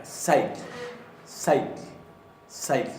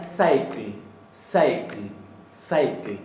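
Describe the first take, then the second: First: Said in the usual way. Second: Cycle stressed hard; emphatic. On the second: Shown as a demonstration. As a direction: punch each cycle. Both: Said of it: "pero de una manera no tan enfática".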